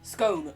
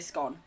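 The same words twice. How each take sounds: First: The vowel rhymes with the word cone. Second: The vowel rhymes with the word gone. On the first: "like cone with an S" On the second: "I don't say scone"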